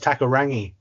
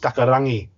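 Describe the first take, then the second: First: The name is said with an anglicised pronunciation. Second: The name is said with a Māori pronunciation. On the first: The speaker calls it wrong. "a name for the Eels that I will always remember people saying is they go" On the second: The speaker calls it right. "you'd hear the Kiwi commentator say it"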